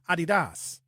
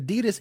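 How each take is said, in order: First: Adidas is pronounced the German way. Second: Adidas is pronounced the usual American way. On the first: The speaker calls it right. "The Germans say Adidas. That's how they say it" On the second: The speaker calls it wrong. "we're saying it wrong"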